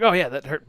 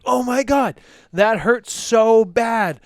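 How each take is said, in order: First: Breezy, brushing off the pain lightly; casual shrug-off. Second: Higher, louder, slow overdone moan of pain; milk "so bad" like a catastrophe; dramatic pained wail. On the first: Retold or imitated. Too busy rushing out the door, so shrugging off the pain. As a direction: say "that hurt" like it barely matters. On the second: Finger slammed in the door, hammed-up wailing about the pain.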